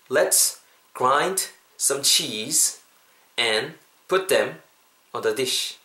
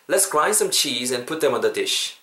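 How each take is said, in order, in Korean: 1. 이 문장은 천천히, 또박또박 말해요. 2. 이 문장은 자연스러운 속도로 말해요. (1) "천천히 한 번만 더 last time" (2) "자연스럽게"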